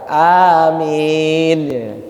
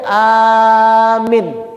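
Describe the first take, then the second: First: Both vowels are drawn out long. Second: The first vowel is long, the second short. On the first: May God grant our prayer. The speaker calls it right. "Dua-duanya panjang" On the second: It means believing. The speaker calls it wrong. "A-nya dipanjangin, mimnya pendek"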